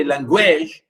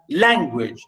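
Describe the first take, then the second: First: "language" wrongly stressed on "guage", with a full vowel; misplaced stress on ending. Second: "language" stressed on "lan", the usual way; stress on first syllable. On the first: Teacher showing what not to say, final syllable stressed. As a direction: push the weight to the end of "language". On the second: Teacher showing correct word stress, first syllable stressed. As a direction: hit the start of "language", light ending. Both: Shown as a demonstration. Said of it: "I didn't say language".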